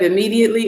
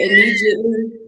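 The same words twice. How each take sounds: First: It is said in a standard accent. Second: It is said in a Southern accent. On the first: This is the usual way to say it. "instead of immediately" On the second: This is how someone from the South says it. "when Lloyd say immediately"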